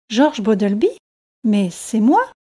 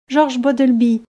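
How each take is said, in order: First: Mildly surprised question, rising at the end; puzzled recognition of one's own name. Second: Said in the usual way. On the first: A narrator's reading. Fisherman hears a stranger ask for him by name, mildly surprised. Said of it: "très surpris".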